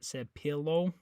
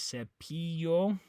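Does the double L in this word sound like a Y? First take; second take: no; yes. First: The double L is not said as Y. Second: The double L is said as a Y sound. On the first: The speaker calls it wrong. "not cepillo" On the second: The speaker calls it right. "The double L makes a Y sound"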